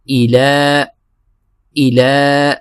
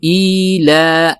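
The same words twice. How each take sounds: First: ایلا with short hamza and lam held two counts; correct length. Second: ایلا said with the hamza drawn out; wrong length. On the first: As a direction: stretch only the لام in ایلا. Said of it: "حمزہ کو نہیں کھینچیں گے، لام کو ہم کھینچیں گے". (ایلا، لام دو حرکت کھینچ کر) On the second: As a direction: show the error of stretching the hamza in ایلا. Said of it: "ایلا نہیں پڑھیں گے". (ایلا غلط، حمزہ کھینچ کر) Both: Shown as a demonstration.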